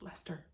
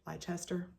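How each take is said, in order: First: The word gets a British-style pronunciation. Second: The word gets an American-style pronunciation. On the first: The speaker calls it right. "It's Leicester. I think" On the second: The speaker calls it wrong. "It's my inclination, being from Ohio, or American even, to just call that Leicester. I don't think that's it"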